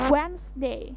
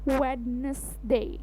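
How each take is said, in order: First: The word is said with two syllables. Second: The word is said with three syllables. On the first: The speaker calls it right. "hanya terdiri dari dua suku kata saja" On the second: The speaker calls it wrong. "bukan Wednesday"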